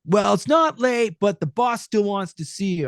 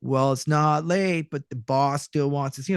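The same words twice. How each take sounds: First: Cartoony ad read. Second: Said in the usual way. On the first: Shown as a demonstration. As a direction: belt it out like an old cartoon host, loud. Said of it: "it started off by going". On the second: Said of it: "No, that's not it".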